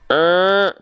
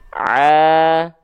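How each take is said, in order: First: The sound leaks partly through the nose. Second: The sound comes only through the mouth. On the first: The speaker calls it wrong. "suaranya seperti suara suneo. Sengau dia. Bunyinya begini" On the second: The speaker calls it right. "jalur suaranya semua ke sini. Tuh, ke rongga mulut"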